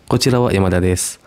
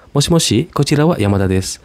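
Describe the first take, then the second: First: Said in the usual way. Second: Higher, quicker phone greeting; phone caller voice. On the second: Shown as a demonstration. Yamada picking up the phone, higher and quicker. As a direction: answer the phone brightly as Yamada. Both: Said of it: "yang lagi ngomong tuh Yamada".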